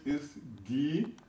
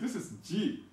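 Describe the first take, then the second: First: It begins with a hard g sound. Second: It begins with a soft j sound. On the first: This is the Edo name of the letter. "But in Edo language" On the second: This is the English name of the letter. "In the English language"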